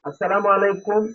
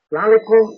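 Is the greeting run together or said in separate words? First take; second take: separate; run together. First: The greeting is said fully, word by word. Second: The greeting is slurred into one quick word. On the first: The speaker calls it right. "আসসালামু আলাইকুম সেটাও ঠিক আছে" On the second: The speaker calls it wrong. "সালামালাইকুম এটাও ঠিক না।"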